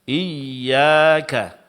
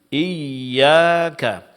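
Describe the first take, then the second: Both takes have the same delivery.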